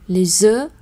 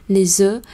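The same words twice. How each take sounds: No difference in how they are said.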